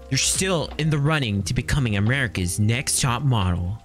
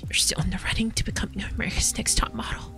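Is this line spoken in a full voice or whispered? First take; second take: full voice; whispered. First: It is spoken in a full, loud voice. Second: It is spoken in a soft whisper. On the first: The speaker calls it right. "why can't you speak up, lady?" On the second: The speaker calls it wrong. "Instead, she goes like"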